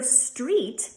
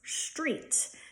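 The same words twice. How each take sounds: First: It starts with a plain S sound. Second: It starts with an SH sound.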